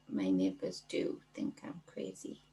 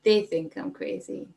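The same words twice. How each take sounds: First: Hushed secretive whisper. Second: Said in the usual way. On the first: Shown as a demonstration. Confiding to the livestream viewers in a whisper. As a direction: breathe it like a secret.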